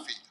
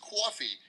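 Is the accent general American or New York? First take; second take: general American; New York. First: It is said in a general American accent. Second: It is said in a New York accent.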